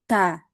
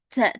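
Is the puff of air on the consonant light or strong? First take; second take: light; strong. First: The consonant has a light, natural puff of air. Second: The consonant has a strong, exaggerated puff of air. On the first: The speaker calls it right. "yang betul ta, ta. Ya, keluar anginnya natural aja" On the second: The speaker calls it wrong. "jangan sampai dibuat-buat ca, ca, ca... itu suara anginnya berlebihan"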